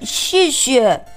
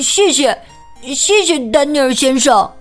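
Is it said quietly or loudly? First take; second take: quietly; loudly. First: It is mumbled quietly. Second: It is said loudly and clearly.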